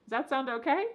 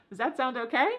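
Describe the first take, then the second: Both takes have the same delivery.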